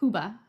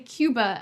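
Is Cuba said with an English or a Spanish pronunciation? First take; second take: Spanish; English. First: Cuba is said with the local Spanish pronunciation. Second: Cuba is said with the usual English pronunciation. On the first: This is how people in the country say it. "and not Cuba? ... that's how they say it" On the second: This is how English speakers usually say it. "why do we say Cuba"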